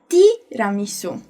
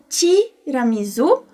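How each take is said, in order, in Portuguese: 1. É dito com pronúncia italiana. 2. É dito com pronúncia do português brasileiro. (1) "em italiano diciamo tiramisu" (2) "nós falamos tiramisu"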